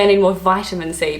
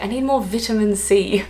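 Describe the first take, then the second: First: Vitamin as VY-ta-min; long-i vitamin. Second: Vitamin as VIT-a-min, short i; British vitamin. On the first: Asking for vitamins her own way, long-i vitamin. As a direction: say "vitamin" with the i of "eye". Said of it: "Or if I say". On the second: Asking for vitamins as the Brits would, British vitamin. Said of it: "I don't wanna be like". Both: Shown as a demonstration.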